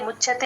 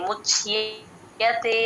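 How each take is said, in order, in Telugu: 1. 'ya' శబ్దం బలహీనంగా, మింగేసినట్టుగా ఉంది. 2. 'ya' శబ్దం స్పష్టంగా పలకబడింది. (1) "ముచ్యతే అనేస్తారు, గమనించుకోండి" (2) "ఆ యా యా క్లియర్ గా పలకాలి... ముచ్యతే అలా రావాలి"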